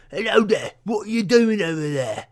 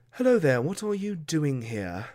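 First: High, coarse British peasant voice; British peasant accent. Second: Noble's British accent, talking down; posh British accent. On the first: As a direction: play a poor British peasant. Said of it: "that's a peasant". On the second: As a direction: play British nobility looking down the nose. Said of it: "that might be nobility". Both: Shown as a demonstration.

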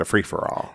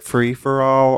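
First: "free for all" joined up like a single word; one compound noun. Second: "free for all" as three words, "all" lifted; raised, questioning "all" in "free for all"; three separate words. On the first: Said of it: "Is it free for all". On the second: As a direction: say "free for all" word by word, ending up high on "all". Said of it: "or is it a free for all". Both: Shown as a demonstration.

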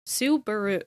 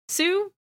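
First: Said in the usual way. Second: Subaru said slowly as "Su... baru"; slow, split up. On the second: Shown as a demonstration. Showing co-hosts the name inside Subaru, slow and split. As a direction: break Subaru after "Su", with a long pause. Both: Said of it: "you need to say it slow".

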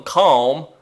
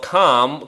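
First: Calm with a flat Midwestern a, rising; Midwestern accent. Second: Said in the usual way. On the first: Shown as a demonstration. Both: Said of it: "that was a Midwestern accent moment".

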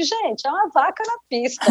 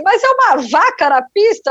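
First: Raised pitch, much softer statement; retold hushed confirmation. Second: High-pitched, incredulous question; retold disbelief. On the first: Telling colleagues about the cow on the runway, hushed amazement. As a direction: confirm it softly, almost to yourself. Her own quieter reply, same words. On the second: Crew baffled by a cow on the runway, incredulous. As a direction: echo everyone's astonishment, pitch jumping up.

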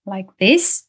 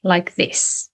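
First: "like this" with the pitch rising at the end like a question; upspeak rise. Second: "like this" with the pitch falling down at the end; falling end tune. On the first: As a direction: end "like this" going up, as if asking. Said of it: "He doesn't go up". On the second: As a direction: end "like this" going down, settled and sure. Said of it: "He ends his sentences". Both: Shown as a demonstration.

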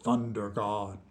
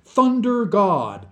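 First: Low, soft and solemn; grave old man's hushed reply; serious. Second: Slow, high and loud; big, drawn-out, raised-pitch prompting; encouraging prompt. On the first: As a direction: intone it gravely, low and quiet. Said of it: "said Jiff Gurd seriously". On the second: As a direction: spell it out loudly to coax the old man. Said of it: "he encouraged". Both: A narrator's reading.

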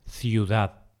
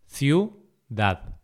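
First: Said in the usual way. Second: Ciudad split into ciu, dad; syllable by syllable. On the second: Shown as a demonstration. Teacher dividing ciudad for learners, syllable by syllable. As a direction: say "ciudad" with a pause between syllables.

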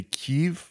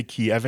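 First: "Kyiv" said as one quick syllable, keev, rising; Ukrainian-style Kyiv. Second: Put-on "Kiev" said the old way, kee-EV in two syllables; old Russian-style Kiev. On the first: Host shows the correct pronunciation: "Kyiv" as keev. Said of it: "We're supposed to say Kyiv". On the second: Host shows the old pronunciation: "Kiev" as kee-ev. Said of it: "we're not supposed to say Kiev anymore". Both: Shown as a demonstration.

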